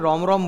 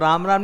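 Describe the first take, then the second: First: The vowel is rounded toward 'o', Haryanvi style. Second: The vowel is an open 'aa', as in standard Hindi. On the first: "Haryana वालों का एक accent होता है, तो राम राम नहीं रोम रोम बोलते हैं" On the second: "राम राम नहीं"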